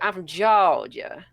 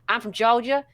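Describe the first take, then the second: First: The phrase is dragged out in a slow drawl. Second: The phrase ends abruptly, with short clipped sounds. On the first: The speaker calls it right. "You would say, ... drawl it out" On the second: The speaker calls it wrong. "you wouldn't say"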